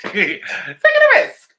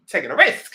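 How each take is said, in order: First: Much higher and louder through a laugh; high laughing repeat; laughing squeal. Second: Said in the usual way. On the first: Real, not acted. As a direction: stretch it out slowly while cracking up. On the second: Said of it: "I said".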